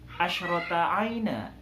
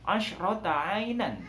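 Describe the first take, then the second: First: The phrase ends with a lengthened final vowel. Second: The phrase ends with a clear final n sound. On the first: The speaker calls it right. "Dibaca asyrota aina" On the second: The speaker calls it wrong. "tidak dibaca tanwin secara jelas"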